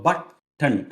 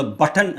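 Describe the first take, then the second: First: "ബട്ടൺ" broken in two, the final n standing alone; syllable split. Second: Said in the usual way. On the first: Shown as a demonstration. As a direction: break "ബട്ടൺ" into bat and tn. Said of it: "ആ എൻ എന്ന് പറഞ്ഞ ശബ്ദം ഒറ്റയ്ക്കാണ് നിൽക്കുന്നത്". ("ബട്ടൺ" രണ്ടായി മുറിച്ച്, ൻ ഒറ്റയ്ക്ക്) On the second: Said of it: "നമ്മൾ ബട്ടൺ എന്ന് പറയുമ്പോൾ".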